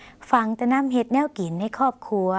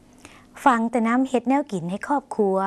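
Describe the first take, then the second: First: Slow, clear repeat of ฟังแต่น้ำเฮ็ดแนวกินให้ครอบครัว; slow Lao demo. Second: Slow, clear Lao model sentence ฟังแต่น้ำเฮ็ดแนวกินให้ครอบครัว; slow Lao demo. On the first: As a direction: repeat it slowly for learners. (อ่านซ้ำช้าๆ ให้ผู้ชมพูดตาม) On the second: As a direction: read it slowly for learners to copy. (อ่านช้าๆ ชัดๆ ให้ผู้ชมพูดตาม) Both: Shown as a demonstration. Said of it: "ลองออกเสียงภาษาลาว".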